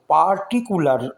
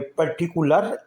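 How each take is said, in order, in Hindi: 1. पहला स्वर लंबी 'ah' ध्वनि है। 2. पहला स्वर छोटी 'uh' ध्वनि है। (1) "इसको पार्टिकुलर नहीं बोलेंगे" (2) "बल्कि इसको बोलेंगे पर्टिकुलर। ए यहाँ पर साइलेंट रहेगा।"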